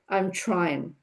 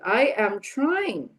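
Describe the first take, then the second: First: The first two words merge into one syllable. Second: Both words are said separately and in full. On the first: "the natural form" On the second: "Same thing with the next two"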